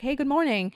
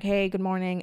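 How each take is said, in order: First: Higher, bright-toned polite receptionist hello; receptionist greeting. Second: Said in the usual way. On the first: Retold or imitated. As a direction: lift it up like a cheery front-desk greeting. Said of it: "the receptionist is like". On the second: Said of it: "you're like".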